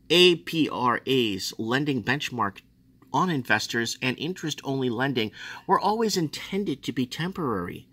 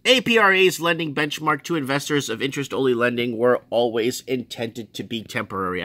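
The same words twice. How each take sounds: First: Said in the usual way. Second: Insistent reread, "lending benchmark" punched at the start; repeated for emphasis. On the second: Shown as a demonstration. Repeating it for disbelieving viewers, insistent emphasis. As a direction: read it out emphatically, starting strong on "A P R A's". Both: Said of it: "I have to say it again".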